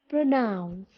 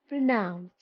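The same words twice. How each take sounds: No difference in how they are said.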